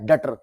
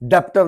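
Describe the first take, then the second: First: No b sound is pronounced in the middle. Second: A b-like sound is pronounced in the middle. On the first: The speaker calls it right. "बी silent होता है" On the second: The speaker calls it wrong. "डेप्टर नहीं"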